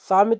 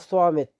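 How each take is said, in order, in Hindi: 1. पहला व्यंजन सादा, हल्का 's' है। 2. पहला व्यंजन भारी 's' है। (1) "सामित बोलोगे तो गलत हो जाएगा" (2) "स्वा करके आवाज निकालना"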